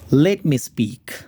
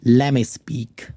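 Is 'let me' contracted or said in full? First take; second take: full; contracted. First: Let me is said as two full words. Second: Let me is blended into one word, lemme.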